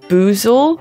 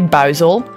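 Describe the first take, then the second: First: The name is said with an English-style oo vowel. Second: The name is said with a Dutch vowel sound. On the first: This is a guess at how English speakers say the name. "How do English-speaking people say Buizel?" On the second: This is how Dutch speakers say the name. "in Dutch we say Buizel"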